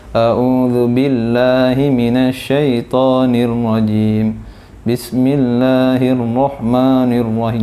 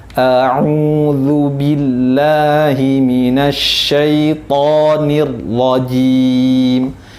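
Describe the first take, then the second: First: "A'udzu billahi" run along low with loosely made letters; ordinary untrained recitation. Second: "A'udzu billahi" very slow, every letter drawn out; trained tahsin recitation. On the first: Ustaz imitating ordinary readers, low unclear recitation of "A'udzu billahi". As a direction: recite it casually, letters not fully articulated. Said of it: "Misalnya kita sering membacanya kadang".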